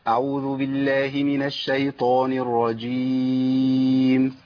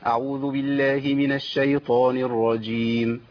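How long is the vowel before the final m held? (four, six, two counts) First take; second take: four counts; two counts. First: The final long vowel is held for four counts. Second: The final long vowel is held for two counts. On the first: "وليه أن أنا أقول 4؟" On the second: "ده 2"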